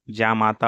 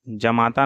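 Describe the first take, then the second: First: Said in the usual way. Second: जमाता with short first a; wrong pronunciation. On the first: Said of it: "होगा". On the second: Shown as a demonstration. Teacher shows students the error, जमाता with short ja. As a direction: say जमाता as ja-maata. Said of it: "नहीं होगा".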